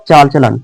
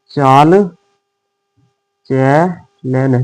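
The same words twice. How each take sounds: First: Said in the usual way. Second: Slow. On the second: Shown as a demonstration.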